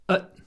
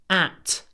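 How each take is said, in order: First: The vowel is reduced to a weak schwa. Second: The vowel is full and clearly pronounced. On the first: "обычно мы говорим" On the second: "И вместо"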